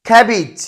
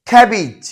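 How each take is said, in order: Both takes have the same delivery.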